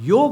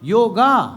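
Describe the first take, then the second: First: The word ends on a consonant, no final vowel. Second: The word ends with an added final vowel. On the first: The speaker calls it right. "योग है" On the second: The speaker calls it wrong. "ये पता नहीं अंग्रेज last में ए कहां से लगा गए"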